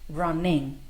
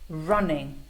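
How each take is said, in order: No difference in how they are said.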